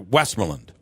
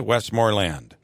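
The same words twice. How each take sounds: First: The stress falls before the final syllable. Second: The stress falls on the final syllable. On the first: "I've always pronounced it" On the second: "you put the emphasis on uh, on land"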